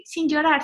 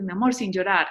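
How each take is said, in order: First: Put-on high child voice echoing mom; higher toddler voice repeating the words; little daughter parroting. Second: Said in the usual way. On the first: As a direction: mimic a toddler copying mom. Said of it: "ella empezó a decir". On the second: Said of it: "yo le decía muchas veces".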